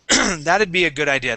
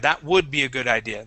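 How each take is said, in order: First: 'That would' is shortened to one syllable, 'that'd'. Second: 'That would' is said as two full words. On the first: "that's a common way that we uh, we actually speak" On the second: "instead of saying that would"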